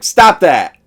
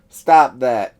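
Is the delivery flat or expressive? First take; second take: expressive; flat. First: It is read with lively, expressive inflection. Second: It is read flatly with no inflection. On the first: The words are acted out as a real scream. The speaker calls it right. "as someone else who might" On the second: The words are just read straight off the page. The speaker calls it wrong. "There's no real inflection in the voice actor's voice"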